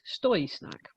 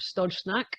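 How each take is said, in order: First: The first word ends with an 'oy' sound. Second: The first word ends with a 'j' sound. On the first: The speaker calls it right. "apparently the way that one pronounces that is Stoy Snack" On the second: The speaker calls it wrong. "I've still mispronounced it"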